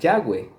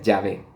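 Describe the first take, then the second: First: The middle consonant is a w sound. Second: The middle consonant is a v sound. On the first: The speaker calls it wrong. "dicen que el nombre de Dios se pronuncia Yahweh ... eso está mal" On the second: The speaker calls it right. "su equivalente en el español es una V, por lo tanto se pronuncia Yahvé"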